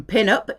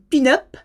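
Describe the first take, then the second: First: Said in the usual way. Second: "pin-up" pronounced the French way; French-accented "pin-up", rising at the end. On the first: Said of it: "coming from pin-up". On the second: Shown as a demonstration. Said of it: "saying pin-up in a French accent".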